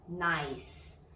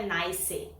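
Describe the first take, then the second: First: Said in the usual way. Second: "nice" with the final e sounded, as two syllables; wrong pronunciation. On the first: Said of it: "por isso que é uma sílaba só". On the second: Shown as a demonstration. Teacher showing learners what not to say, "nice" mispronounced in two syllables. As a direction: say "nice" as "nai-see", voicing the silent e. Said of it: "Não é nice".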